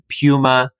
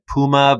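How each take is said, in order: First: It is said the way Australians pronounce it. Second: It is said the speaker's own non-Australian way.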